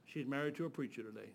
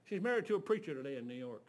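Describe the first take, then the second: First: "married" slowed and leaned on, softer; soft repeat, weight on "married"; quiet emphatic repeat. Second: Said in the usual way. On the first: Shown as a demonstration.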